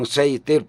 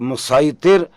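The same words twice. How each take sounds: First: The s sound is light and whistling. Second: The s sound is heavy and emphatic. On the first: This is how the other tribes said it. "बाकी" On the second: This is how the people of Mecca said it. "मक्का के लोग"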